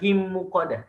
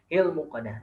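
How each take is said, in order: First: The l sound merges into the following m. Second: The l sound is pronounced clearly before m. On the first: The speaker calls it wrong. "Jadi bukan him muqadah" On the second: The speaker calls it right. "tapi hil muqadah"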